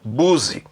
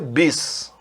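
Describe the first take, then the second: First: The first vowel sounds like 'oo'. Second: The first vowel sounds like 'ih'. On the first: The speaker calls it wrong. "Não é buzi" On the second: The speaker calls it right. "De fato é bis"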